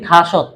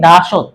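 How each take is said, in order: First: The word begins with an aspirated t sound. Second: The word begins with a voiced d sound. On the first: This is how the word is actually spoken. "কিন্তু তার উচ্চারণ করে কি থাসত" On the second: This is how the word is written. "যেমন আমরা লিখি দাসত"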